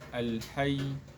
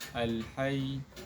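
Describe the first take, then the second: The two takes are said the same way.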